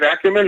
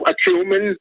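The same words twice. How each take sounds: First: "Acumen" stressed on the first syllable, ACK-yu-men; corrected stress. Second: "acumen" stressed on the second syllable, a-CUE-men; misplaced stress. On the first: Caller repeats host's correction. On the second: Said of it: "putting the emphasis on the wrong syllable". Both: Real, not acted.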